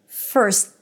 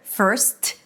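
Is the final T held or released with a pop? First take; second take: held; released. First: The final T is stopped without a release. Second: The final T is popped with a release. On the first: The speaker calls it right. "you abruptly stop the S with a T" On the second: The speaker calls it wrong. "I don't need to pop the T"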